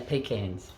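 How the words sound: It is said the Australian way. "We say pecans"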